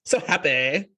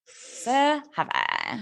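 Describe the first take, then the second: First: Creaky fry on happy; vocal fry demo. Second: Slow, soft creaky so happy; vocal fry. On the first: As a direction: drag it out in fry. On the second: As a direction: stretch it out, all fry. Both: Shown as a demonstration. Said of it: "You should be like".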